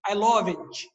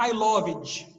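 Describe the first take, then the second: First: "loved" ending in a hard "dji" sound; "loved" with the final consonant punched, Portuguese style; Brazilian-style loved. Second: "loved" with a strong final consonant; "loved" with its last sound hit hard; wrong Brazilian loved. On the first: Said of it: "costuma botar forte a última consoante". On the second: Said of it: "Não é I loved". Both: Shown as a demonstration.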